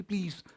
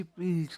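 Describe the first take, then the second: First: Barely voiced, strangled from the throat; a feeble croak forcing out "please"; faint choked please. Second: Weak throaty squeeze of "please"; a dying croak of a plea; faint choked please. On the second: Acted. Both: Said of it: "सिर्फ एक गले से हल्की सी".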